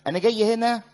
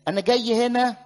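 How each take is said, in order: Both takes have the same delivery.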